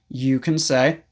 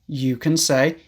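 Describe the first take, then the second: No difference in how they are said.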